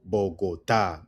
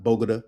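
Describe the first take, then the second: First: "Bogota" slowly as bo-go-TA; stress on last syllable. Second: "Bogota" as BOH-guh-duh, first syllable stressed; mispronounced English way. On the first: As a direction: lean on the final TA in "Bogota". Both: Shown as a demonstration. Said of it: "not Bogota".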